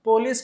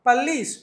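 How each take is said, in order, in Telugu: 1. మొదటి అచ్చు పొడవైన 'oh' లాగా వినిపిస్తుంది. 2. మొదటి అచ్చు చిన్న 'uh' లాగా వినిపిస్తుంది. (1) "పోలీస్ కాదు" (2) "పల్లీస్ లాంచ్"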